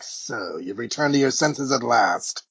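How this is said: It is spoken in a smooth, suave villain voice. "that's my bad imitation of the movie voice"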